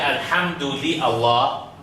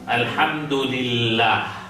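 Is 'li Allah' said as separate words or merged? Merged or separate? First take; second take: separate; merged. First: Li and Allah are said as separate words. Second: Li and Allah merge into one word, lillah. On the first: The speaker calls it wrong. "I don't say Alhamdulillah Allah" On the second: The speaker calls it right. "What I say, Alhamdulillah"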